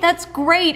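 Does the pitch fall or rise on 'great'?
rise. The pitch rises brightly on 'great'. The speaker is genuinely happy for the listener. "I'm so happy that you made the team"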